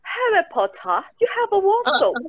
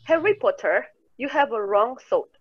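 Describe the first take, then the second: First: It is spoken in a British English accent. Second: It is spoken in an American English accent. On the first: "Kalau nonton Harry Potter itu pernah denger kayak gini" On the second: "kalau orang Amerika dia bakal bilang"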